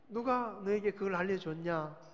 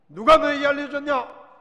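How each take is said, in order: First: The question is asked in a very soft voice. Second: The question is asked in a harsh, stern voice. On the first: The asker is gentle and not angry. The speaker calls it right. "그냥 아주 부드러운 목소리로" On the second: The asker is angry and accusing. The speaker calls it wrong. "이 말투가요, 이게 아니에요"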